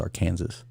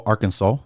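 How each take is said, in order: First: "Arkansas" as ar-KAN-zuss, ending in a z-sound like Kansas. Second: Said in the usual way. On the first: Shown as a demonstration. Host joking to viewers, "Arkansas" said ar-KAN-zuss like Kansas. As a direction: say "Arkansas" rhyming with Kansas, ending -zus not -saw. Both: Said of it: "or Arkansas".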